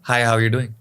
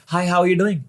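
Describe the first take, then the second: First: The greeting is said at a normal pitch. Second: The greeting is said at a high pitch. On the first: "normal" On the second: "हाय"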